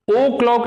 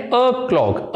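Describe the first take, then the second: First: ओ क्लॉक with a full round "oh"; wrong long O. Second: अ क्लॉक starting on a short "uh"; unrounded schwa opening अ क्लॉक. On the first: Teacher shows students the wrong form, ओ क्लॉक with round "oh". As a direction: open ओ क्लॉक on a long O vowel. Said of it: "नहीं बोलना". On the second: Teacher shows students the right form, अ क्लॉक with short "uh". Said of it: "आपने बोलना है". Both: Shown as a demonstration.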